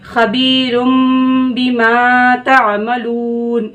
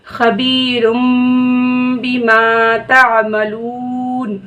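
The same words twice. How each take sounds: First: Slow recitation of खबीरुम बिमा तामलून with sukun at the end; stopping at the verse end. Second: Slow recitation ending तामलून with a silent नून; stopping at the verse end. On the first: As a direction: pause on तामलून, last letter silent. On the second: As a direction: stop on तामलून, last letter held silent. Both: Shown as a demonstration. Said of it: "इस तरीके से".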